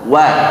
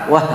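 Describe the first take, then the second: First: It starts with a drawn-out rounded u glide. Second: It starts abruptly with no rounded glide. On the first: The speaker calls it right. "kayak ditarik dulu" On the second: The speaker calls it wrong. "Jangan langsung wa. Wah, nggak jelas nanti"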